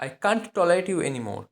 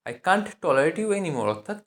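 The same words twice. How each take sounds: First: Slow, word by word; slow dictation. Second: Said in the usual way. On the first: Shown as a demonstration. Teacher modelling English for Bengali learners, slowly. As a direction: say it slowly so they can follow. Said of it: "teacher models the English slowly". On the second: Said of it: "teacher repeats".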